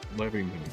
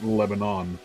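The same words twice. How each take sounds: First: The name is said the way locals say it. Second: The name is said the way outsiders say it. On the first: This is how the town's own residents say it. The speaker calls it right. "every resident who lives in that town calls it Lebanon" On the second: This is how the news says it. The speaker calls it wrong. "anytime it's in the news, it's always Lebanon"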